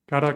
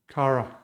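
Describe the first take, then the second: First: The r is a quick tongue tap. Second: The r is not a quick tongue tap. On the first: The speaker calls it right. "No, cara ... So cara would be the right pronunciation here" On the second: The speaker calls it wrong. "Pay very close attention that you are not saying something like cara"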